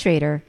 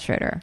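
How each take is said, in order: First: The first vowel sounds like 'ay'. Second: The first vowel sounds like 'oh'. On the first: The speaker calls it right. "I think it's Schrader" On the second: The speaker calls it wrong. "not Schroeder"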